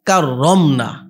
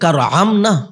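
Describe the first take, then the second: First: The middle r is long and doubled. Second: The middle r is short and single. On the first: The speaker calls it right. "মানে তাকে সম্মানিত করেছি" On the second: The speaker calls it wrong. "এটা কি শব্দ"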